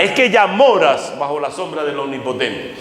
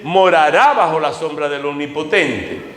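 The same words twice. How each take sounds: First: "ya moras" pressed as present fact, falling; "que ya moras" stressed firmly as already true. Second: "Morará" leaned on as future tense, falling; stress on morará. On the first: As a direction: correct him with "ya moras", here and now. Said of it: "Pero originalmente no es que morará". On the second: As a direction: weigh the word "Morará" as a promise still to come. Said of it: "Aunque la literal dice". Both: Shown as a demonstration.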